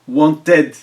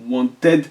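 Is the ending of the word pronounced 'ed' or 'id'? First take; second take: ed; ed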